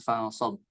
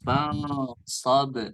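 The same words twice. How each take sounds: First: The final b ends flat with no bounce. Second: The final b ends with an echoing bounce. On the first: The speaker calls it wrong. "Tidak ada pantulan" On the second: The speaker calls it right. "maka itu dibaca qalqalah"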